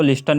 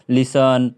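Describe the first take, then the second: First: "लिस्टन" with an audible T; wrong reading, T sounded. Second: "लिसन" with no T sound; silent T. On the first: Teacher recalling what not to read, T sounded in "लिस्टन". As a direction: say "लिस्टन" as lis-tan. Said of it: "नहीं पढ़ रहे थे". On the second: Teacher recalling the correct reading, T dropped in "लिसन". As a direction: say "लिसन" as li-san. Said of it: "इसको लिस्टन नहीं पढ़ रहे थे". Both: Shown as a demonstration.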